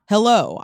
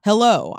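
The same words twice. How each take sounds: First: It sounds bold and assertive. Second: It sounds bold and assertive.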